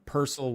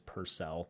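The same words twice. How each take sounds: First: The name is said the Irish way. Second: The name is said the Americanized way.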